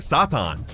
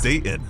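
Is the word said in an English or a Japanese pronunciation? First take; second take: Japanese; English. First: The word is said with Japanese pronunciation. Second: The word is said with English pronunciation.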